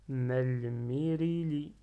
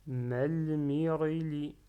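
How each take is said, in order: First: "malmirili" slowly, with a clear "ri"; ri, not ré. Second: "Malmirili" slowly, with "ré" in place of "ri". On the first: Teacher correcting the ra with kasra, clear "ri". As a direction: say malmirili as mal-mi-ri-li, drawn out. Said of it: "ça se prononce ri". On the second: Teacher reading syllables, slipping to "ré" for "ri". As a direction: say Malmirili as mal-mi-ré-li. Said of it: "j'avais prononcé ré au début". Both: Shown as a demonstration.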